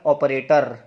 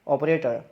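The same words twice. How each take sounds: First: The final r sound is clearly pronounced. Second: The final r sound is dropped. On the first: The speaker calls it wrong. "यदि आर हम बोलेंगे तो ये word किस तरह से बोलेगा" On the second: The speaker calls it right. "वो कैसे बोलते हैं"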